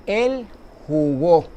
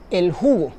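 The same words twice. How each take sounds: First: Slow "jugó" with the stress landing on GÓ; stress on last syllable. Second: "jugo" stressed on JU, falling away on go; stress on first syllable. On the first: Teacher contrasts the verb with the drink, stress on final GÓ in "jugó". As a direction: stretch it out and hit the final GÓ of "jugó". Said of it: "una palabra aguda que lleva tilde". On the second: Teacher gives the noun for a drink, stress on JU in "jugo". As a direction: say "jugo" with the weight on JU. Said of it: "ya no sería el jugo, sino el jugó". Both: Shown as a demonstration.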